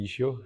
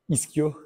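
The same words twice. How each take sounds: First: The word is pronounced the Belgian way. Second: The word is pronounced the non-Belgian way. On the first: "en Belgique, on dit ischio" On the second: "chez vous, vous dites ischio"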